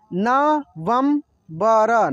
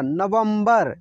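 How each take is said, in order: First: November drawn out slowly, syllables apart; slow syllable reading. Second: Said in the usual way. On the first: Shown as a demonstration. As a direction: sound out November slowly for learners. (नवंबर को धीरे धीरे अक्षर अलग करके) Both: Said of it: "जैसे जैसे मैं पढ़ रहा हूँ ना".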